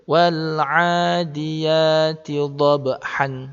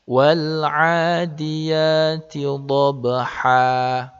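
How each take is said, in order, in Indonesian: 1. Kata terakhir berakhir dengan bunyi n. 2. Kata terakhir berakhir dengan vokal panjang. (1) "Tidak boleh" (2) "kalau kita membacanya berhenti, maka kita baca panjang"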